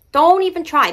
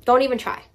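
First: "Don't" pushed up high and loud, falling after; teasing raised-voice warning; louder insistent repeat. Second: Said in the usual way. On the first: Shown as a demonstration.

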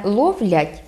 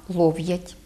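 First: Said in the usual way. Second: Лов'ять with v straight into ya; no inserted л. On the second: Shown as a demonstration. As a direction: Podillia лов'ять, "LOV-yat". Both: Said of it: "не відбувається чергування".

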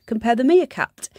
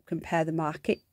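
First: Pun on meerkat, mimicking the ad slogan; ad slogan twist. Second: Said in the usual way. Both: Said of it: "had a mascot of a meerkat".

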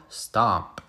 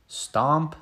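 First: Stomp dropped low and falling; second stomp grounded low; heavy stomp. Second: Bright rising stomp, sing-song; first stomp tossed upward; playful stomp. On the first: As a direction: land it down like a heavy boot. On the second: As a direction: bounce it up like a first step. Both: Pretend. Onomatopoeia in kids' story.

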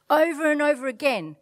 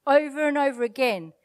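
No difference in how they are said.

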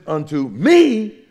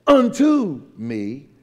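First: Unto quick, ME high, loud and long; stress on me. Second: UNTO loud and drawn out, me lighter; slow, heavy "unto", questioning lift on me; stress on unto. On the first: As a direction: punch and stretch "me". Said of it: "But if it's unto me". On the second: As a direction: lean slowly on "unto". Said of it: "If it is". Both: Shown as a demonstration.

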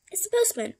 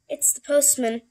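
First: High, singsong postman announcement; high-voiced postman. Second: Lightly voiced postman, a bit louder; postman announcing himself. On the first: Postman repeats who he is, in a high voice. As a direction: call it out in a much higher voice. Same answer redone much higher. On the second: Postman answers the Scaredy Cats' question, lightly voiced announcement. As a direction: announce yourself through the door. Visitor answers through the door.

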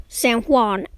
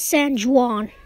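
First: "San Juan" with Juan starting on a soft H; corrected pronunciation. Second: "San Juan" with Juan starting on an English J; anglicized pronunciation. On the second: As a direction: say "San Juan" as "san joo-AHN". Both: Real, not acted. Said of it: "pronouncing it wrong".

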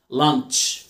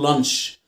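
First: "لانش" ending in ch, as lanch; light t before sh. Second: "لانش" ending in plain sh, no t; wrong soft sh ending. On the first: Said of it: "في تي خفيفة". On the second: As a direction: say "لانش" as lansh, without the t. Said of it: "اوعى تقول". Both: Shown as a demonstration.

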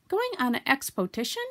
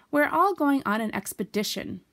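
First: "expotition" said with po-TI in place of pe-DI; higher, eager question garbling expedition as "expotition"; eager mispronunciation. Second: Said in the usual way. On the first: A narrator's reading. Pooh eagerly asks Christopher Robin, garbling "expotition". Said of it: "said Pooh eagerly".

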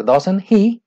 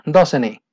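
First: "doesn't he" with an audible H starting "he"; H pronounced. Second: "doesn't he" run together as "doesn-ee", no H; H dropped. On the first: Teacher showing students the option, H pronounced in "doesn't he". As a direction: sound out the H in "he" of "doesn't he", slowly. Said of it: "que pronuncien la H". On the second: Teacher giving the normal example, H silent in "doesn't he". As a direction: link "doesn't he" with the H of "he" left silent. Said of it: "pues no se pronuncia". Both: Shown as a demonstration.

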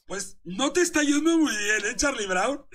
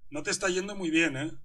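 First: Higher and louder teasing jab; mocking taunt. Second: Said in the usual way. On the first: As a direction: rub it in, playful and loud. (burla aguda y fuerte, tono de troleo) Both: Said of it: "te estoy troleando".

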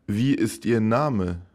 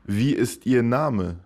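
The two takes are said the same way.

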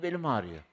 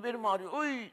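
First: Said in the usual way. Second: Much higher, whiny complaint; hammed-up back pain wail; mock groan. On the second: Mother groaning about her back.

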